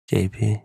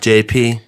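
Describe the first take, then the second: First: The name is said quietly. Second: The name is said loudly.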